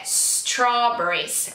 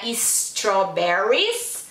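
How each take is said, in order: First: "strawberries" starting straight on the s, slow; right strawberries. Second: "strawberries" with an extra vowel before the s, is-trawberries; wrong strawberries. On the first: Parent correcting, slow clean s in strawberries. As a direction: give the correct "strawberries", no vowel before s. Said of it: "é strawberries". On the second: Parent showing the mistake, is-trawberries. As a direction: show the wrong "strawberries" with a leading i. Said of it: "Não é strawberries". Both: Shown as a demonstration.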